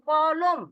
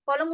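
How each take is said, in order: First: "কলম" said slowly as two smooth syllables, ক-লম; "কলম" in one breath, kɔ-lom, unhurried; natural pronunciation. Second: "কলম" chopped apart, ক and লম said separately; "কলম" split unnaturally into separate sounds; broken syllables. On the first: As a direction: say "কলম" the normal way, slow and clear. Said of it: "না, বলেন কলম". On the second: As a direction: say "কলম" as if spelling it out, each piece detached. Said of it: "এভাবে করেন কলম". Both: Shown as a demonstration.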